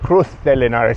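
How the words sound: The z in Cruz is a th sound. "The locals say"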